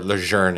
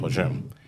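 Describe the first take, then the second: First: It is pronounced the French Canadian way. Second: It is pronounced the usual English way.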